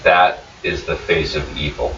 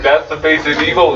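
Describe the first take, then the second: First: Lightly voiced stunned Nosta. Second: Mock Nosta accusation. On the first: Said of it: "this is all he's able to say". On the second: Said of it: "He looks directly at you and is like".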